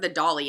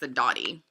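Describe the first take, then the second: First: The middle consonant is an L sound. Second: The middle consonant is a T sound. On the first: The speaker calls it wrong. "I always said it wrong" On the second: The speaker calls it right. "it's not, it's the Dottie"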